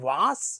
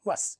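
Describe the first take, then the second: First: The vowel is long, like aa. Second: The vowel is short, like a. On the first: The speaker calls it wrong. "ഈ ആ ആ എന്ന് പറയുന്ന ആ ഒരു ഉച്ചാരണത്തിലുള്ള വ്യത്യാസം" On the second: The speaker calls it right. "വാസ് എന്ന് പറയാതെ വസ് എന്ന് പറയണേ"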